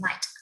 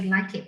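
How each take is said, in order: First: The ending is a short t sound. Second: The ending is an extra syllable. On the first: The speaker calls it right. "you say light" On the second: The speaker calls it wrong. "if you see ed, don't say like it"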